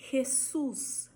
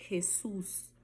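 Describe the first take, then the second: First: Jesus with throaty J; Spanish Jesus. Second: Jesus whispered, rasping J. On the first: Teacher modeling Spanish Jesus. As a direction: say Jesus, J as rasping H. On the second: Teacher whispering Jesus to show the J. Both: Shown as a demonstration. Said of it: "sempre o J terá som de R".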